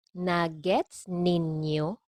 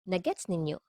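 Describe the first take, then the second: First: "Nagets ninyo" drawn out slowly; slow model. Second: Said in the usual way. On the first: Shown as a demonstration. Teacher models phrase slowly, then normally.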